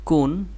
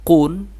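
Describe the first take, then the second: First: কুন, light and plain at the start; thin light consonant. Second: কুন, full and heavy at the start; thick heavy consonant. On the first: (কুন চিকন করে) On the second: (কুন মোটা করে) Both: Shown as a demonstration. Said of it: "এটা মোটা, এটা চিকন".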